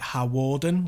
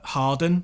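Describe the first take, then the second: First: The name is said with three syllables. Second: The name is said with two syllables. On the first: The speaker calls it wrong. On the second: The speaker calls it right.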